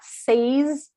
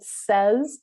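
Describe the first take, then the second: First: The vowel matches the vowel of 'say'. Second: The vowel differs from the vowel of 'say'. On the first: The speaker calls it wrong. "So it's not says" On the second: The speaker calls it right. "it says, which is just slightly different"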